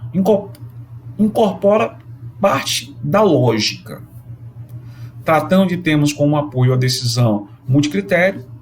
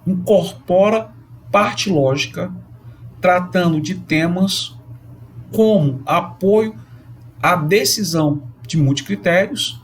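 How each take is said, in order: First: It is read faster, flowing more smoothly. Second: It is read slowly, with many pauses. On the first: "eu vou ler um pouco mais rápido" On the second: "eu falei bem pausado"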